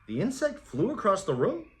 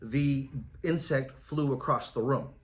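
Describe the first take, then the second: First: It is said as a puzzled, confused question. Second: It is said flatly, with little emotion.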